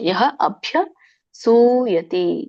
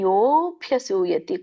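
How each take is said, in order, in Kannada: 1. ಎರಡು ಪದಗಳನ್ನು ಬಿಡಿಸಿ, ಕೂಡಿಸದೆ ಹೇಳಲಾಗುತ್ತದೆ. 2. ಪದಗಳು ಕೂಡಿ ಒಂದು ರೂಪವಾಗುತ್ತದೆ: yobhyasuyati. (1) "ಬಿಡಿಸಿದಾಗ ಯಹ ಅಭ್ಯಸೂಯತಿ ಅಂತ ಬರುತ್ತೆ" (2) "ಹಾಗಾಗಿ ಕೂಡಿ ಹೇಳಿ"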